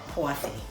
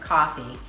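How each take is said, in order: First: The word is said in a New York accent. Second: The word is said in a general American accent. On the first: "in New York, we call it coffee" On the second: "we don't call it coffee"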